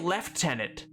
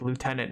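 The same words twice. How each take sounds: First: It is said the British way. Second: It is said the American way. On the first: The word was changed away from its borrowed form. "The British say lieutenant" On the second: The word keeps its borrowed form. "we didn't change it at all"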